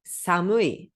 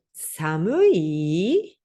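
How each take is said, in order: First: Said in the usual way. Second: "Samui" drawn out, final i sweeping upward; question intonation. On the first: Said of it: "adjetivo samui". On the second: Shown as a demonstration. Teacher showing Japanese question tune, "Samui" rising at the end. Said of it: "é entonação pra cima".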